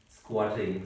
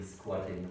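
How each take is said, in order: First: Said in the usual way. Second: "squatting" said again lower and much softer; quiet echo of "squatting"; softer repeat. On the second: Shown as a demonstration. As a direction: let the repeated "squatting" fall away softly.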